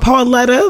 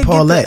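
First: The name ends with an extra vowel. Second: The name ends on the t sound. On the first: The speaker calls it wrong. "I don't even have an A at the end of that shit" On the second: The speaker calls it right. "why can't I just be Paulette?"

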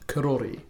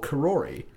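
First: It has a Māori pronunciation. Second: It has an anglicized pronunciation. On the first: This is the original correct pronunciation. The speaker calls it right. "it's actually pronounced" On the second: This is how everyone locally used to say it. The speaker calls it wrong. "what I used to call Karori"

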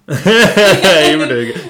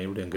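First: The word were is stressed. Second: No word gets special stress. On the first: The person is no longer doing well. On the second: The person was doing well.

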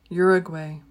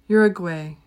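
No difference in how they are said.

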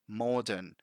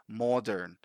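No difference in how they are said.

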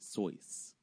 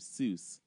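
First: The vowel sounds like 'oy', rhyming with choice. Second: The vowel sounds like 'oo', rhyming with juice. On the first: This is how the family said the name. The speaker calls it right. "he pronounces it Soyce" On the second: This is the common way people say it. The speaker calls it wrong. "If you're calling him Seuss"

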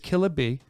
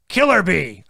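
First: The name is said without a hard R. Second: The name is said with a hard R. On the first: The speaker calls it right. "But it's Killaby" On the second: The speaker calls it wrong. "why are you dropping a hard R? Killaby. That's what I said"

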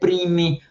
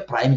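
First: It is read as spelled, the Portuguese way. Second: It is pronounced the English way, like 'praim'.

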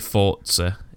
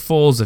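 First: Forza is pronounced the Italian way. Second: Forza is pronounced the British way. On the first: The speaker calls it right. "It's actually Forza" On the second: The speaker calls it wrong. "I've said Forza for years because I'm so British it hurts"

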